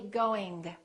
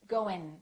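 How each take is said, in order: First: The G is released audibly at the end. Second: The G is dropped, ending in a front N. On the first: "Don't release it. Don't say going" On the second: "they just produce the N ... in the front of their mouth"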